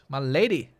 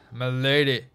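First: It is said in the speaker's normal voice. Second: It is said in a put-on knightly voice.

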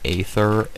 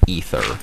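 First: The word begins with an 'ay' vowel. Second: The word begins with an 'ee' vowel. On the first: The speaker calls it wrong. "I would say it's Aether if it was spelled A-E, like, separately" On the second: The speaker calls it right. "I'm 110% sure it is Aether, because that's this is the way it's spelled ... that makes, like, an E sound"

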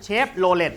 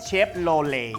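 First: The word ends with an audible T sound. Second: The word ends without any T sound. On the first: This is how Thai people say it. "ทำไมคนไทยเรียก" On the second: This is how Westerners say it. "ทำไมฝรั่งเรียก ... ตัว Let สุดท้ายมันไม่ออกเสียง T"

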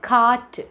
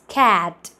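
First: The vowel is an open 'ah' sound. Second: The vowel is a flat 'ae' sound. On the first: The speaker calls it wrong. "it is not cat" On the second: The speaker calls it right. "it's cat. A sound. Malayalathil illatha shabdam a sound"

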